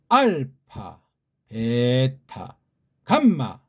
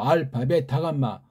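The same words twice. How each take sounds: First: It is said with varied pitch and loudness. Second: It is said flatly with little pitch variation. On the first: The speaker calls it right. "힘을 줘가지고 높낮이랑 강약을 샘여림을 집어넣기 때문에" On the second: The speaker calls it wrong. "그냥 밋밋하게"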